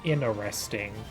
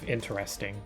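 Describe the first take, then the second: First: The T sound is dropped from the word. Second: The T sound is clearly pronounced in the word.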